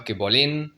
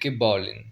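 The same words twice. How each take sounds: First: The stress falls on the last syllable of bolin. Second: The stress falls on the first syllable of bolin. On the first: The speaker calls it wrong. "c'est pas que bolin" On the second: The speaker calls it right. "l'accent tonique repasse sur la première syllabe, repasse sur le o"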